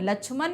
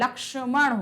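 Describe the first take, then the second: First: The middle cluster sounds like 'chh'. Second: The middle cluster sounds like 'ksh'. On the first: The speaker calls it wrong. "लक्ष्मण नहीं होता" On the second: The speaker calls it right. "लक्ष्मण होता है"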